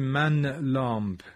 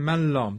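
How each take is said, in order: First: The n is pronounced clearly before the l. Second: The n merges into the following l. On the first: The speaker calls it wrong. "نمیگیم من لامپ" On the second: The speaker calls it right. "میگیم من لامپ. داریم ادغام میکنیم"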